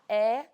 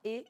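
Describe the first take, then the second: First: The vowel is said with a more open quality. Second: The vowel is said with a closer quality. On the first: This is how some northeastern regions say it. "Se você for em algumas regiões do Nordeste ... É mais aberto" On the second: This is how the São Paulo region says it. "aqui na região de São Paulo"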